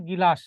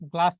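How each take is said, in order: First: "গিলাস" as gi-las, an i splitting g and l; vowel inserted after g. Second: Said in the usual way. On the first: Shown as a demonstration. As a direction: break the gl cluster with an i in "গিলাস". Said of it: "আগে গর উচ্চারণ". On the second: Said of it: "একটা শব্দ লিখলাম গ্লাস".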